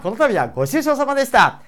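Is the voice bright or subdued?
bright. It is said in a higher, bright voice.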